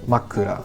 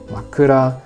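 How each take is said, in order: First: The pitch is high, then low, low. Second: The pitch does not follow high-low-low. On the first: The speaker calls it right. "the pit action structure high, low, low" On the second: The speaker calls it wrong. "I used the wrong pitch"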